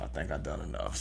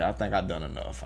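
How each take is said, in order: First: Much softer and lower; near-whisper. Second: Quieter, lower. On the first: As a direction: let it fade almost to nothing. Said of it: "repeat, much softer". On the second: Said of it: "first take, lower and softer". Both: Shown as a demonstration.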